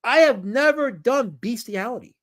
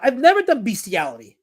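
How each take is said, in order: First: Slow, raised, each word of "I have never done" weighted; slow emphatic denial. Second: Higher-pitched indignant protest; indignant denial. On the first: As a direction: spell out the denial slowly and indignantly. Repeats denial slowly, word by word. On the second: Indignant denial of chat's accusation. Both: Real, not acted.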